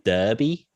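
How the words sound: It is said with an Australian pronunciation. "I think Australians say Derby"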